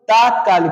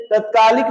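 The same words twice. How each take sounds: First: तात्कालिक with a long first aa, said as taatkaalik; teacher gives the right form तात्कालिक; correct spelling said. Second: तत्कालिक with a short first a, said as tatkaalik; तत्कालिक said short at the start, the wrong way; teacher shows the wrong form तत्कालिक; wrong spelling said. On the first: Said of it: "तात्कालिक सही होता है". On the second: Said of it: "तत्कालिक ना सही होकर". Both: Shown as a demonstration.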